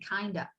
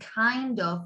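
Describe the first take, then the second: First: The words blend into one reduced word. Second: Both words are said fully and separately. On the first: "we say kinda" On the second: "instead of saying kind of"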